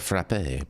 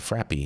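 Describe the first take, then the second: First: The word ends with an 'ay' sound. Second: The word ends with an 'ee' sound. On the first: The standard French-style name for the drink. "that's how you say it" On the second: A playful, informal name for the drink. "I like saying frappy. It's it's more classy"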